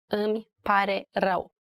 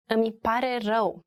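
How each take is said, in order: First: "Îmi pare rău" with a pause after each word; three separate words. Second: Said in the usual way. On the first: Shown as a demonstration. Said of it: "Three words".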